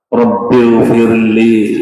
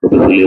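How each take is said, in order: First: It is said slowly and calmly. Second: It is said quickly and rushed. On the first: The prayer is savoured and understood. The speaker calls it right. "dibaca pelan-pelan" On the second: The prayer is hurried through without care. The speaker calls it wrong. "kalau dibaca geradak-geradak"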